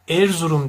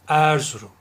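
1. E ünlüsü kuvvetli biçimde kapalıdır. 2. E ünlüsü geniş biçimde açıktır. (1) "Erzurum dersem kapalı telaffuz etmiş olurum" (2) "Peki açarsam"

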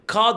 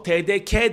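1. Son harf 'ka' diye okunur. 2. Son harf 'ke' diye okunur. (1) "K dersen T D K'da" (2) "T D K dersen T D K'de"

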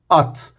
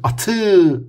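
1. Kelime t sesiyle temiz bir şekilde bitiyor. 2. Son t'den sonra fazladan bir ünlü ekleniyor. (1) "Bu şekilde öğrenmeli" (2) "atı değil"

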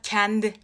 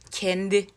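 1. E sesi açık söylenir. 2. E sesi kapalı söylenir. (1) "onu da kendi gibi açık E ile söylüyordum" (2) "Sanırım bak o E'ler kapanmış"

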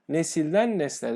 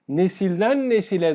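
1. İkinci kelime ortadaki ünlüsünü düşürür. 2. İkinci kelime ortadaki ünlüsünü korur. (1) "derseniz yanlıştır" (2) "derseniz doğru"

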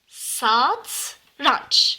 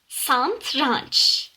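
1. t sesinden önce n sesi gelmez. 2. t sesinden önce bir n sesi gelir. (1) "Doğrusu satranç" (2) "bu N harfi burada olmayacak"

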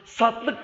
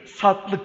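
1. Orta ünlü düşürülür, iki hece olur. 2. Orta ünlü düşürülür, iki hece olur.

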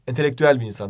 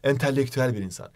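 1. L sesi tek ve kısa söylenir. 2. L sesi çift ve uzun söylenir. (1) "entelektüel bir insan demek gerekiyor. Ve iki L olmaması lazım" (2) "Biz de bunu böyle iki tane L ile söylüyoruz. Yanlış"

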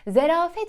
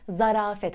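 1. İlk sesli harf 'e' gibi okunur. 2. İlk sesli harf 'a' gibi okunur. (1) "Zerafet şeklinde duyuyoruz" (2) "ama doğrusu zarafet olacak"

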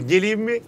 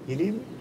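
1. Alçak ama biraz daha yüksek bir sesle söyleniyor. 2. Daha da kısık bir sesle söyleniyor. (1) "Böyle yaptı" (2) "her ses bir öncekinden daha kısıktı"

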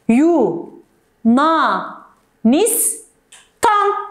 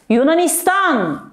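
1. Kelime ayrı hecelere bölünüyor. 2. Kelime kesintisiz, akıcı bir şekilde söyleniyor. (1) "Sayalım mı?" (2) "Ama böyle mi okuyacağız? Asla"

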